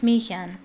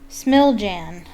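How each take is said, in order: First: The name is said in its native pronunciation. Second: The name is read literally, letter by letter. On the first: The speaker calls it right. "I believe that's how you pronounce it" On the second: The speaker calls it wrong. "That's not how you pronounce it, but that's what it looks like"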